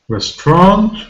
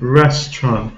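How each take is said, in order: First: The stress falls on a later syllable. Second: The stress falls on the first syllable. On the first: The speaker calls it wrong. "If we have the wrong stress, we can uh, be misunderstood" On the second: The speaker calls it right. "the vowel sound is a, short"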